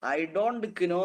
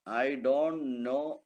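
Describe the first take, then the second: First: "know" said as "kino", k pronounced; sounded silent k. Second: Said in the usual way. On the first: Shown as a demonstration. Teacher showing what nobody says, "know" with its k sounded. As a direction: wrongly voice the k in "know", k-no. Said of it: "എന്ന് ആരും പറയാറില്ല". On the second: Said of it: "എന്നേ പറയുള്ളൂ".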